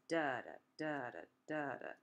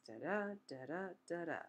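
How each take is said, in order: First: "da-da" with the first syllable stressed, DA-da; strong-weak beat, each "da-da" falling away; trochaic rhythm. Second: "da-da" with the second syllable stressed, da-DA; weak-strong beat on each "da-da"; iambic rhythm. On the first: Teacher demonstrating trochaic meter, "da-da" stressed on the first beat. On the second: Teacher demonstrating iambic meter, "da-da" stressed on the second beat. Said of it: "Iambic is". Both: Shown as a demonstration.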